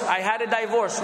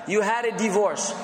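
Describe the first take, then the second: First: "divorce" said with a long dye, DYE-vorce; wrong pronunciation. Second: "divorce" with a short di, dih-VORCE; correct pronunciation. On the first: Teacher imitating a learner's mispronounced "divorce". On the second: Teacher correcting a learner's "divorce" to dih-vorce. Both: Shown as a demonstration. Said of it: "No, you didn't have a divorce".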